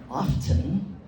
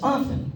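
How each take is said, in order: First: The T sound is pronounced. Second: The T sound is silent. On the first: The speaker calls it wrong. "It's not often" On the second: The speaker calls it right. "It's often"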